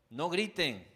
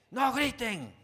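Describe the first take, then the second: First: Put-on raised voice telling the kids to stop shouting; loud, scolding the children; yelling at the kids. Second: Much higher, full shout, losing patience; louder exasperated shout. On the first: (padre que alza la voz a sus hijos) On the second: Retold or imitated. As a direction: blow up at the kids, mock-comic. (grito exasperado, mucho más agudo y fuerte) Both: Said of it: "ese es mi tema con, con mis hijos".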